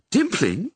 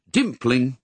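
First: "Dimpling?" asked high with a rising tune; surprised question. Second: Said in the usual way. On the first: A narrator's reading. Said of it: "said Missus Dearly". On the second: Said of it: "she read out".

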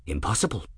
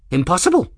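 First: Said in the usual way. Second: Impossible said much higher and louder, rising; emphatic repeat. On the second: Acted. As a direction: throw Impossible up in loud disbelief. Ferris repeats the word twice.

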